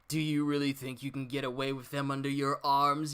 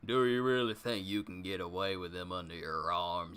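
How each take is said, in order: First: It is read in the speaker's plain voice. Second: It is read in Sasaki's character voice.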